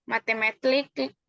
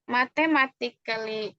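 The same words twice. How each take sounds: First: "Mathematically" rushed and clipped, syllables swallowed as /matematlik/; hurried slip. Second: Said in the usual way. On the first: Real, not acted. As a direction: blurt out "Mathematically" fast and garbled, a false start.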